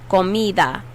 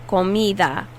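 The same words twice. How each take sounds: Both takes have the same delivery.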